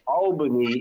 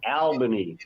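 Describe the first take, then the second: First: It is said with an American pronunciation. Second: It is said with an Australian pronunciation. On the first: "Albany in New York" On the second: "We have Albany"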